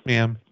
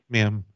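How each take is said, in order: Both takes have the same delivery.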